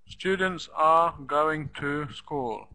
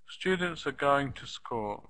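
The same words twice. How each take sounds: First: Every word gets the same equal stress. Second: Only some words are stressed; others are reduced. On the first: The speaker calls it wrong. "every word as if it's in the list" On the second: The speaker calls it right. "Try saying it like I say it"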